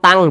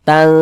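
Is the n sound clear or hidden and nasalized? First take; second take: clear; hidden. First: The n sound is pronounced clearly, not hidden. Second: The n sound is hidden and nasalized. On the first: The speaker calls it wrong. "jangan dibaca tang" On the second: The speaker calls it right. "tapi dibaca tang"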